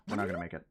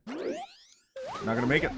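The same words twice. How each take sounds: First: Said in the usual way. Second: High, slow, silly falsetto whine; mock-panicked falsetto wail; squeaky falsetto.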